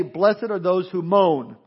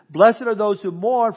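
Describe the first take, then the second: First: "moan" drawn out slowly with a falling close; stress on moan, not mourn. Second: "mourn" said firmly, set against "moan"; stress on mourn. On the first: Preacher correcting a misreading, stressing "moan". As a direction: lean hard on "moan" to contrast it with "mourn". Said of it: "it doesn't say". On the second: Preacher reading the verse to the congregation, stressing "mourn". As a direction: read the verse slowly, landing on "mourn". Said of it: "Mourning is different than moaning". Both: Shown as a demonstration.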